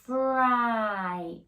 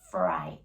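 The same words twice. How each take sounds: First: The word is drawn out slowly, sounds stretched. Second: The word is said quickly at normal speed.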